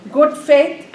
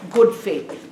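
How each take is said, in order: First: "Good faith" repeated louder and higher, punching "Good" with a rising end; emphatic repeat. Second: Said in the usual way. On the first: Shown as a demonstration. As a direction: hammer home "Good faith" for the class. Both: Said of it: "you're doing in what faith?".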